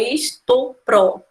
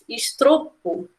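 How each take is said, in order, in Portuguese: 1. O som do R está na última sílaba. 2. O som do R vem depois do T. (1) "O R vai lá no pro e não no T" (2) "Não existe também"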